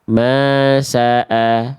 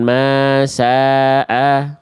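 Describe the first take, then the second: First: The vowel in 'sa' is short. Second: The vowel in 'sa' is drawn out long. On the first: The speaker calls it right. "Sa-nya kepanjangan Bunda, langsung ke A" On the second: The speaker calls it wrong. "bukan masa'a, bukan saja kepanjangan ya"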